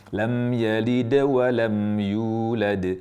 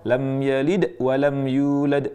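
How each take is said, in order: First: The d sound gets a light, soft bounce. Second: The d sound is cut off with a catch. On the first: The speaker calls it right. "Harusnya ringankan suara qalqalah itu" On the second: The speaker calls it wrong. "tidak diperkenankan memutusnya ... ini putus"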